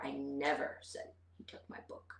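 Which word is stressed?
never. The stress is on the word never. I did not say it at all. "put the emphasis on never"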